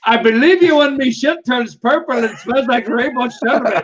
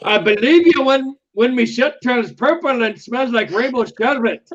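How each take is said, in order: First: A lightly put-on Irish accent, laughing through it. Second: A lightly put-on Irish accent, a bit higher. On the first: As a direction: redo the line in Irish, cracking up. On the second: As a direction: read the movie line in a loose Irish accent. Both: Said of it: "my interpretation of an Irish accent".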